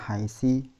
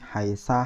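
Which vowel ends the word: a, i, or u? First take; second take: i; a. First: The word ends with an i vowel. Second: The word ends with an a vowel. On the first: "tidak akan berubah menjadi haisa haisi" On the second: "tidak akan berubah menjadi haisa haisi"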